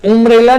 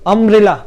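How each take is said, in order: First: उम्ब्रेला starting with a rounded उ; wrong pronunciation. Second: अम्ब्रेला starting with a short open अ; correct pronunciation. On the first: Teacher showing the wrong version to students, rounded उ. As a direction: say उम्ब्रेला with उ, the way it should not be said. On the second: Teacher reading the word correctly for students, clear अ. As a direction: say अम्ब्रेला with अ, not उ. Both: Shown as a demonstration. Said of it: "उम्ब्रेला नहीं ना बोलते हैं".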